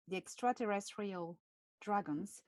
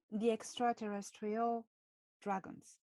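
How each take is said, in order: First: Extraterrestrial said with a French accent. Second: Extraterrestrial with a French lilt; French accent. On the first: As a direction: give it your French accent. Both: Shown as a demonstration. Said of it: "how I say extraterrestrial with my French accent".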